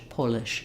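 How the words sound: The first vowel is open and rounded. "British people may say"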